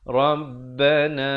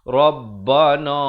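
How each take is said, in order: First: The final vowel is thin, with a narrow mouth. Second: The final vowel is broad, with a wide-open mouth. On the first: The speaker calls it right. "Dia mestilah Rabbana na" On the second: The speaker calls it wrong. "jangan nganga mulut luas... itu tak mau"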